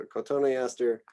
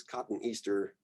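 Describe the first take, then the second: First: Cotoneaster as co-TONE-ee-AS-ter; every vowel its syllable. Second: Cotoneaster misread as two words, cotton Easter; tempting mispronunciation. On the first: Lecturer correcting the tempting slip, cotoneaster with each vowel sounded. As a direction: give cotoneaster five syllables, not two words. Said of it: "give a syllable to each new vowel sound". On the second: Lecturer warning of a common slip, cotoneaster said as cotton Easter. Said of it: "tempting, I think, to pronounce this as". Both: Shown as a demonstration.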